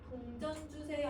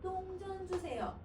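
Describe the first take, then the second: First: The first consonant is a plain d sound. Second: The first consonant is a tense dd sound. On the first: The speaker calls it right. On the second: The speaker calls it wrong.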